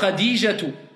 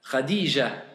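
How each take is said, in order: First: The word ends with a clear final -tu syllable. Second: The word ends without the final -tu syllable. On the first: "Je prononce clairement" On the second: "normalement je dis Khadija"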